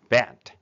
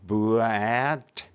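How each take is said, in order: First: The sounds are blended into one word. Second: The sounds are pulled apart, slowly. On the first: "バットとなります。" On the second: "B プラスA プラスT をブレンディングすると"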